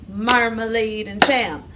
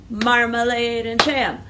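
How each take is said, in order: No difference in how they are said.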